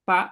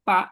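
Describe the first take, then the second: Both takes have the same delivery.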